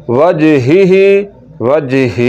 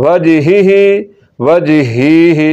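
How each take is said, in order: Both takes have the same delivery.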